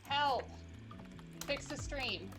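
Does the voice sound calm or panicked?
calm. It is said in a calm, plain voice.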